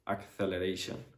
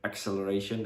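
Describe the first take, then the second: First: The c is said as a th sound. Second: The c is said as an s sound. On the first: The speaker calls it wrong. "they say acceleration" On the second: The speaker calls it right. "Instead of acceleration"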